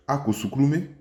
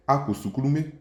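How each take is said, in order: First: "Ako suklume" with "ako" rising, then "suklume" stressed; rising intonation on ako. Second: "Ako suklume" with "ako" lifted high and rising; rising intonation on ako. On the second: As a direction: raise the pitch on "ako" in "Ako suklume". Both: Shown as a demonstration. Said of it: "le ako avec une intonation montante".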